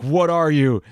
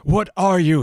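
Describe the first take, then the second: First: Raised, louder half-acted demand; mock demanding researcher. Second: Much higher and louder, dramatic demand. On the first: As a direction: blurt the question up high like a scared scientist. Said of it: "asks one of the test subjects". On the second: Acted. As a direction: read it like a frantic scientist demanding an answer. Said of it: "he demanded".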